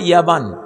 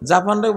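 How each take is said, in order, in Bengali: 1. শব্দটি y শব্দ দিয়ে শুরু হয়। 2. শব্দটি j শব্দ দিয়ে শুরু হয়।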